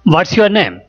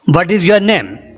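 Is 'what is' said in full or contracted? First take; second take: contracted; full. First: What is is contracted into one short word. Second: What is is said as two full words.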